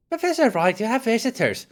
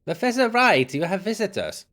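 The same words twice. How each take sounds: First: Housekeeper calling out. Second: Put-on German accent. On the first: Acted. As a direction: call brightly up to the patient, high voice. Retake of housekeeper without German accent. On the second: Housekeeper announcing visitors to professor, German-accented. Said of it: "why did I give her a German accent".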